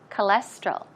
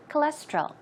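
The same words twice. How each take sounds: First: The word is said at a slower pace. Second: The word is said at a faster pace.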